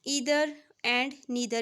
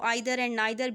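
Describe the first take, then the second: First: The words begin with an 'ee' vowel sound. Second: The words begin with an 'eye' vowel sound.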